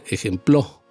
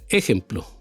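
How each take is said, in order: First: The stress is on the last syllable. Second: The stress is on the first syllable. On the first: "Tampoco en la palabra, en la sílaba plo" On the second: "no en la e"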